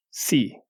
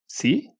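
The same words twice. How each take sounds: First: Said in the usual way. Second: Si? lifted sharply upward at the end; Si with a high rising tune. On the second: Shown as a demonstration. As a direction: say "Si?" like a question. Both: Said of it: "There is a different meaning".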